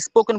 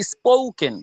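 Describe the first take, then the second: First: "স্পোকেন" with a plain short o; unglided o in "স্পোকেন"; common mispronunciation. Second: "স্পোকেন" with a stretched ou-glide; long pressed diphthong in "স্পোকেন"; correct pronunciation. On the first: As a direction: say "স্পোকেন" without stretching the o. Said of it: "অনেকে স্পোকেন বলে". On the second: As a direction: lean on the o of "স্পোকেন", gliding into u. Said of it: "এটা স্পোকেন". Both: Shown as a demonstration.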